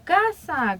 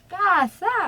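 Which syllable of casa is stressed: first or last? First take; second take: first; last. First: The stress is on the first syllable. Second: The stress is on the last syllable. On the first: The word keeps its normal syllable count. "que termina es grave" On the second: One syllable is added to the count. "si casa fuera aguda"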